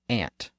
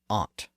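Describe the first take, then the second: First: The vowel is the front 'a' of 'hat'. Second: The vowel is the open 'ah' of 'father'. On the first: "Some people say ant" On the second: "and some people say aunt"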